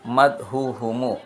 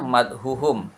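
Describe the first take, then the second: First: The word ends with an added short vowel. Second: The word ends on the consonant m. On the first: The form is adjusted to fit the poem's meter. "Agar sesuai syair" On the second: This is the original grammatical form. "Asalnya madhuhum"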